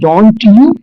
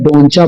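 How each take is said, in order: First: The two words are said separately and fully. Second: The two words blend into one 'doncha' sound. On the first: "अगला word है डोंट यू" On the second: "English language के अंदर डोंचा बोल दिया जाता है"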